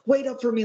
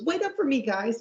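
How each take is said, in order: First: High, louder mock call; high-pitched imitation. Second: Squeaky-high cartoon plea; very high-pitched imitation. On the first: Imitating a character calling after the group, high-pitched. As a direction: call it out in a raised cartoon pitch. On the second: Imitating a character dropping his fake voice, very high-pitched. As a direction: push it way up into a mock falsetto. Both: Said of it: "high-pitched real voice".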